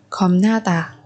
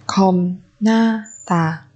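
First: Said in the usual way. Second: Very slow "Khom na tà"; syllable by syllable. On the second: Shown as a demonstration. Teacher modelling a word for learners, very slowly. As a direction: space out each syllable of "Khom na tà".

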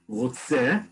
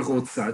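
First: "רוצה" said as rotse, ending in e; "רוצה" as the masculine rotse; male form. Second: "רוצה" said as rotsa, ending in a; "רוצה" as the feminine rotsa; female form. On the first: Teacher models "רוצה" as rotse, ending in e. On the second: Teacher models "רוצה" as rotsa, ending in a. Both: Shown as a demonstration. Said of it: "depending on who's speaking".

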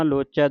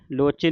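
First: "ਲੋਚੈ" ending in an open ai. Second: "ਲੋਚੇ" ending in a close e; mistaken e ending. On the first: Teacher models dulavan, open ai in "ਲੋਚੈ". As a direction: widen the last vowel of "ਲੋਚੈ" to ai. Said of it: "ਦਲਾਵਾਂ ਦੇ ਨਾਲ". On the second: Teacher warns against the slip, close e in "ਲੋਚੇ". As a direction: finish "ਲੋਚੇ" on e, not ai. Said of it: "ਨਹੀਂ ਪੜਨਾ". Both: Shown as a demonstration.

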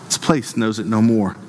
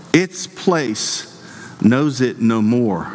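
First: Said in the usual way. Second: "Its place" raised, then "knows it no more" drawn out slowly; weighty, spaced-out "Its place ... knows it no more"; emphatic reading. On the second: Real, not acted. Key verse repeated for emphasis.

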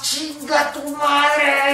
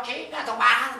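First: A high, stretched-out curse, slow and drawn; cursing while running. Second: Said in the usual way. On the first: Shown as a demonstration. Coach shows listeners what to yell while running, stretched out slowly. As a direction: vent it mid-jog, slow and high. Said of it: "mientras vas corriendo vas". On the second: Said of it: "Si le quieres poner una palabra".

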